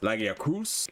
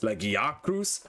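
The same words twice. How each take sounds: First: The stress is on the fourth syllable. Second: The stress is on the third syllable.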